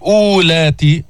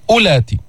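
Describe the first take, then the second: First: أولاتي with a long drawn first oo; wrong demo of أولاتي, long first vowel; wrongly pronounced waw. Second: أولاتي with a short first u; silent waw. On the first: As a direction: stretch the opening u of أولاتي as if the waw were sounded. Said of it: "فما بتقول". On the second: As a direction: clip the opening vowel of أولاتي, waw unpronounced. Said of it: "هذه الواو لا تلفظ". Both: Shown as a demonstration.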